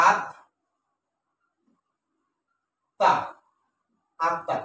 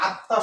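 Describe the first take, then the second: First: আত্মা broken in two, with a long silence between the syllables; আত্মা as two separate beats; split into syllables. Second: Said in the usual way. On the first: Shown as a demonstration. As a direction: stop dead after the first syllable of আত্মা, then give the second. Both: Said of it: "এটার উচ্চারণ হবে কি".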